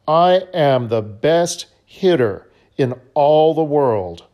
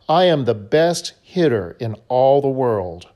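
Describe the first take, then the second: First: It is said in a strongly determined way. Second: It is said in a calmer, plainer way.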